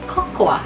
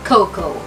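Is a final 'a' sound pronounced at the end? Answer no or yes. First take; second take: yes; no. First: A final 'a' sound is pronounced. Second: No final 'a' sound is pronounced. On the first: The speaker calls it wrong. "Hindi binibigkas ang letter A sa salitang cocoa. Hindi mo siya bibigkasin na cocoa" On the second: The speaker calls it right. "Kaya ang tamang bigkas ay cocoa"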